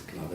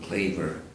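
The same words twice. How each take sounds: First: The name is said with a Catalan pronunciation. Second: The name is said with an English pronunciation. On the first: "but it's Claver in, in uh, Catalonian" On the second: "they pronounce it Claver in Anglicizing it"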